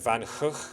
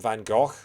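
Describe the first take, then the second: First: Both G's are throaty sounds, like in 'loch'. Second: The name is said in a British way. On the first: "the correct pronunciation, according to Dutch people; both G's are kind of like a sound, like the Scottish loch" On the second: "British people call him Van Gogh"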